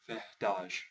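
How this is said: The r is pronounced like a breathy h. "the R's are actually an H"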